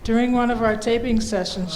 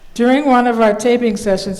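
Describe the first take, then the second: First: It is said at a quieter volume. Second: It is said at a louder volume.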